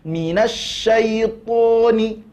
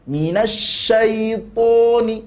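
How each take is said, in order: The two takes are said the same way.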